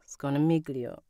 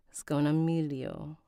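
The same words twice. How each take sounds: First: "Sconamiglio" with an audible hard G before the L; hard G sounded. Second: "Sconamiglio" with no G sound before the L; silent G. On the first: Narrator trying out a name, "Sconamiglio" with the G sounded. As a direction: say "Sconamiglio" as skoh-nuh-MIG-lee-oh. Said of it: "the G is silent". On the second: Narrator practising after learning the rule, "Sconamiglio" with silent G. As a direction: say "Sconamiglio" as skoh-nuh-MEE-lee-oh. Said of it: "The G is silent". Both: Shown as a demonstration.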